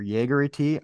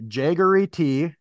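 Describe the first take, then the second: First: "Jaegery" starting like Jaeger, with a Y; Jaeger-style pronunciation. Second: Said in the usual way. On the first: Shown as a demonstration. Host picking a way to say the tea, Jaeger-style pronunciation. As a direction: say "Jaegery" as YAY-guh-ree. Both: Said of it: "I'm gonna say Jaegery".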